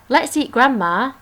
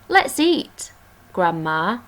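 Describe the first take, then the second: First: It runs straight on with no pause. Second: There is a pause before Grandma.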